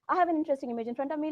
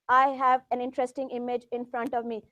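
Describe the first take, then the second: First: It is spoken quickly and continuously. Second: It is spoken slowly, without pauses. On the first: The speaker calls it right. "this fast thing" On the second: The speaker calls it wrong. "I know I was slow"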